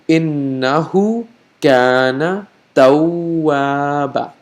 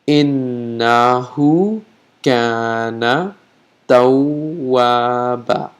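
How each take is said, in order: First: The phrase is said at a normal pace. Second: The phrase is said slowly and deliberately.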